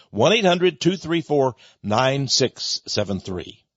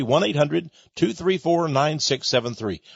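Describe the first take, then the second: First: Phone number read out slowly, digit by digit; slow the digits down so listeners can write them; slow repeat. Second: Said in the usual way. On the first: Shown as a demonstration. Radio host repeating the number slowly for listeners.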